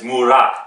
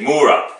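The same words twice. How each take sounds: First: The stress is on the second syllable. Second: The stress is on the first syllable. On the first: The speaker calls it right. "you put the emphasis on the second syllable" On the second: The speaker calls it wrong. "not like I said yesterday and he got really irritated"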